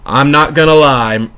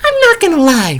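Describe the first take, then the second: First: It is said in a normal, unaltered voice. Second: It is said in a high, squeaky voice. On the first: The speaker calls it wrong. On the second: The speaker calls it right.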